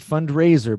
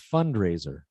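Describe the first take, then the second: First: The stress is on the second syllable. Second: The stress is on the first syllable. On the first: The speaker calls it wrong. "you're saying fundraiser ... You're still putting the, the stress on Ray" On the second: The speaker calls it right. "but it's fundraiser ... stress syllable is fund"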